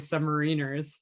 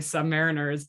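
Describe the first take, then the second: First: It is said the American way. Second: It is said the Canadian way. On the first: "but you guys say submariners" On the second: "So in Canada, we say submariners"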